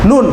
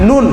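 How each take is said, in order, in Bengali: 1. স্বরটা ছোট, তাড়াতাড়ি বলতে হবে। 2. স্বরটা ছোট, তাড়াতাড়ি বলতে হবে।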